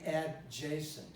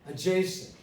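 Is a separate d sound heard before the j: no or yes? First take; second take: yes; no. First: A separate d is heard before the j. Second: No separate d; the first vowel is a schwa. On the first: The speaker calls it wrong. "I don't say adjacent" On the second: The speaker calls it right. "I say adjacent. Just a schwa here"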